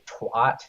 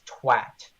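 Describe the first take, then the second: First: It is said with an American vowel. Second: It is said with a British vowel. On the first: The speaker calls it wrong. "I used to say twat" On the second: The speaker calls it right. "He would always correct me to say no, it's twat"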